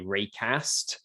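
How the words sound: It is said with a northern English accent. "if you were up north, then you would say"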